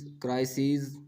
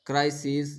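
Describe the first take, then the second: First: क्राइसिस with a long final "-seez"; plural -es ending. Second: क्राइसिस with a short final "-sis"; singular -is ending. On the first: Teacher giving the plural for pupils, long "-seez" in क्राइसिस. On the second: Teacher giving the singular for pupils, short "-sis" in क्राइसिस. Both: Shown as a demonstration. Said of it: "आईएस को ईएस में बदलने से".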